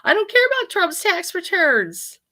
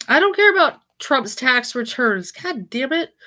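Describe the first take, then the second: First: Higher, slow exasperated plea. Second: Irritated, a bit louder; annoyed. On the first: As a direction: drag it out, fed up. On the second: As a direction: snap at the screen. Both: Real, not acted. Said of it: "Let me try it again".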